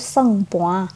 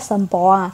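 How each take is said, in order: First: The word is said with an ng sound. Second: The word is said with an m sound. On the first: This is how the word is usually said. "kalau biasa dibacanya itu sengpoa" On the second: This is how the word is written. "tulisannya itu sempoa"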